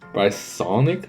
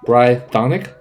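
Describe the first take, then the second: First: The middle consonant is an s sound. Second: The middle consonant is a th sound. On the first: "am I mispronouncing it again?" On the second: "is that better?"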